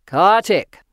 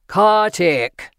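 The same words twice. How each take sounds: First: Loud, commanding voice from above; deep powerful voice. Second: Louder, demanding call; deep powerful voice. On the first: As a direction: call the name out with booming authority. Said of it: "deep and powerful". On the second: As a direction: insist on an answer, booming. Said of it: "the voice repeated". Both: A narrator's reading.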